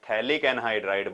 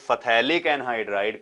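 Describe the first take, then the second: First: The word starts with no f sound. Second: The word starts with an f sound. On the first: The speaker calls it right. "जैसे मैं यहां पर थैलिक anhydride बोल रहा था" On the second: The speaker calls it wrong. "इसको फथैलिक anhydride कभी नहीं कहते हम"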